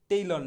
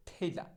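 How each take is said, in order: First: Said in the usual way. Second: ঠেইলা with aspirated ঠ and open "laa", no r; corrected pronunciation. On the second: Shown as a demonstration. Teacher modelling tailor for learners, ঠেইলা with aspirated start. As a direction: start ঠেইলা on a puffed "th", drop the r. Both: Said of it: "টেইলর না".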